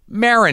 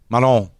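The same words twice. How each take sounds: First: The name is said with an English pronunciation. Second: The name is said with a French pronunciation. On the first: "like Baron" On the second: "the French pronunciation to my name is lovely"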